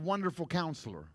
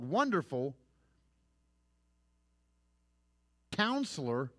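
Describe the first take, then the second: First: The two words run together without a pause. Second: There is a pause after Wonderful.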